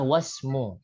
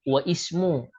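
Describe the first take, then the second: First: The words are linked, dropping the i sound. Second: The words are separate, keeping the i sound. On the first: The speaker calls it right. "cara bacaan adalah wasmu" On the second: The speaker calls it wrong. "ini bukan wa ismu cara bacanya"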